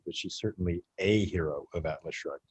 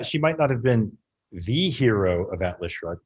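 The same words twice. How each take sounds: First: "a" said as AY before hero; softer, lower line with a stressed long "a". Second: "the" said as THEE, leaning on it; emphatic long "the" ahead of hero; stress on THE. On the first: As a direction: lean on "a" to mean one of several. Contrasts A hero with THE hero. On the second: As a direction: punch "the" before hero as the one and only. Contrasts THE hero with A hero. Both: Real, not acted.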